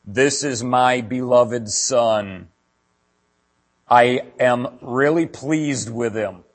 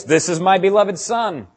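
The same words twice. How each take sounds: First: Slow, solemn voice of God from the clouds. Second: Higher and louder, slow and ringing; shouted quote of God. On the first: Pastor voicing God at the baptism, slow and solemn. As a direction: intone it slowly like heaven speaking. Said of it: "God's voice came out of the sky saying". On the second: Pastor quoting God at the baptism, loud proclaiming. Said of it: "God's voice". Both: Retold or imitated.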